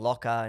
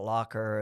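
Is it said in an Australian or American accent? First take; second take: Australian; American. First: It is said in an Australian accent. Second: It is said in an American accent.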